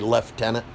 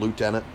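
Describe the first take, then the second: First: It begins with a 'left' sound. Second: It begins with a 'loo' sound. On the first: "the British say lieutenant" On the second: "instead of lieutenant"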